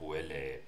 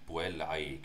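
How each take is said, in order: First: It is said in a non-classical Latin pronunciation. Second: It is said in a classical Latin pronunciation. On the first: This is an acceptable way to read Latin texts. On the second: This is how it probably sounded in the first century BC.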